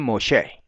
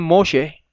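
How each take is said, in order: First: Moshe stressed on SHE; final stress. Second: Moshe stressed on MO; first-syllable stress. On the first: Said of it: "otros dicen Moshe". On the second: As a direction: say MO-she for Moshe. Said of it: "algunos dicen Moshe". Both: Shown as a demonstration.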